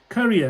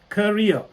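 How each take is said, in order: First: It sounds like the word carrier. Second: It sounds like the word career. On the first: The speaker calls it wrong. "Carrier, not" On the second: The speaker calls it right. "It's career"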